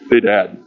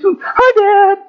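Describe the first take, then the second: First: It is said in a deep voice. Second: It is said in a high-pitched voice.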